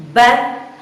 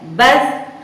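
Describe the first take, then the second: Both takes have the same delivery.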